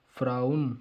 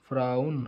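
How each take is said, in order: Both takes have the same delivery.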